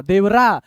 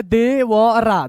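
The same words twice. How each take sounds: First: Said in the usual way. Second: Very slow, separated syllables. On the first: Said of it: "एक एक अक्षर आपको तोड़ के". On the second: Shown as a demonstration. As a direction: spell it out sound by sound. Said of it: "एक एक अक्षर आपको तोड़ के बता रहे हैं".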